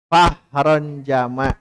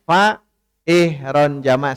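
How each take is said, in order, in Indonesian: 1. Vokal setelah fa dihilangkan dan disambung. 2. Vokal setelah fa dibaca terpisah. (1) "Langsung tuh fahron jama'" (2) "Tidak boleh ... salah"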